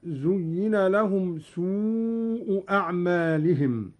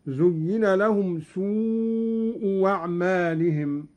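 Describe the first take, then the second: First: Said in the usual way. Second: سوء أعمالهم said su wa'malihim with a waw; hamza to waw. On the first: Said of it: "قرأ قالون". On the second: Shown as a demonstration. Teacher demonstrating Qalun's waw for the hamza, slow chant. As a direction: turn the second hamza into waw after سوء. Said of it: "هكذا".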